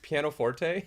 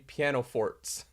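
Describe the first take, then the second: First: The word ends with a final 'tay' sound. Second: The word ends like the word 'forts'. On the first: The speaker calls it right. "but it's pianoforte" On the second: The speaker calls it wrong. "she says uh, there won't be any piano forts"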